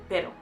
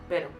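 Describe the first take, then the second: First: The first vowel is short and clipped. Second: The first vowel is short and clipped.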